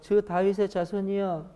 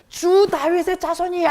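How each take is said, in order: First: It is said quietly, without shouting. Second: It is shouted loudly.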